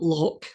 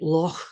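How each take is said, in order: First: It ends with a hard K sound. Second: It ends with a raspy sound in the throat. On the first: The speaker calls it wrong. "that's that's not how you say it" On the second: The speaker calls it right. "you say it at the back of your throat like that"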